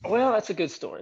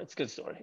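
First: Said in the usual way. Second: Quiet aside. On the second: Real, not acted.

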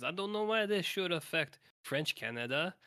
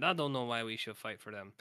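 First: Imitating Johnny with a raised pitch; the hero's doubtful question, played higher; quoting Johnny, high French-Canadian voice. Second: Quoting Johnny. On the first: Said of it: "he says". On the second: Retold or imitated. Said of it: "He said".

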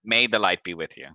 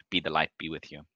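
First: "May" said firmly at fuller volume; stress on May. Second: Softly murmured blessing; temple clerk's blessing. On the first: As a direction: restate the blessing, leaning on "May". Corrects the wording of blessing. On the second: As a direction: give a quiet, low blessing as a temple clerk. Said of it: "and goes". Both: Acted.

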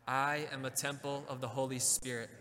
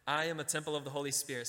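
First: Steady declaration said together with the congregation; group affirmation. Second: Brisk model line before the congregation repeats; quick example. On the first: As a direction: lead them through it evenly. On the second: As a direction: rattle it off as a prompt. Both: Shown as a demonstration. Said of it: "Say that with me".

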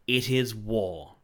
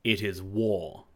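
First: Loud, slow, fierce answer; savage retort. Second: Loud, slow, solemn pronouncement; grave declaration. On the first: King returning the woodsman's declaration, savage. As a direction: fling it back angrily, drawn out. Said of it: "returned the king savagely". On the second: Master woodsman declaring war on the king, resolute. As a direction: declare it firmly, drawing it out. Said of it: "with flashing eyes". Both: A narrator's reading.

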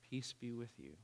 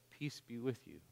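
First: Soft, quieter calm voice; calm, soft repeat. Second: Soft, calm, sure voice; calm and confident. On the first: The surfer repeating peace to Brad, softer and calmer. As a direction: say it again gently, softer still. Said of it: "he says it again". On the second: Risen surfer speaking softly to Brad, calm and confident. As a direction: speak peace gently. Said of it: "It's calm and confident". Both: Acted.

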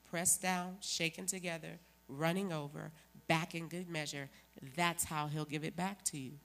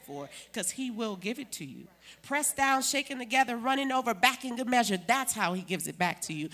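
First: Said in the usual way. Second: Ringing preacher's shout of scripture; loud proclaiming. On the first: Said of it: "Y'all just don't sing about it". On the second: Real, not acted. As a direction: call it out to the church, full force.

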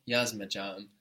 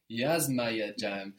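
First: Yazmayacağım squashed short, "ma-ya" shrunk to "ma"; crushed A's. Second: Slow Yazmayacağım with "ma" and "ya" both sounded; Yazmayacağım in full, stressed first syllable then every A heard; both A's kept. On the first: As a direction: middle syllables run together as "yazma-jam" in Yazmayacağım. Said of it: "crush one A with another A". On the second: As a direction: say Yazmayacağım slowly, a Y separating the two A's. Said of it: "we need to keep both". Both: Shown as a demonstration.

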